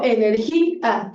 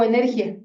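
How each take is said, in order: First: Energía drawn out slowly, stress on the í, split from the a; energía con hiato. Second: Energía with final -ia run together as one syllable; energía como diptongo. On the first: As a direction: say energía as e-ner-GÍ-a, two separate final vowels. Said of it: "le pongo tilde y es un hiato". (energía lenta, con la í tónica separada de la a) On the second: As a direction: say energía wrongly, gliding "ia" into a diphthong. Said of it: "yo no digo energía". (energía con «ia» en una sola sílaba, sin acento en la í) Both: Shown as a demonstration.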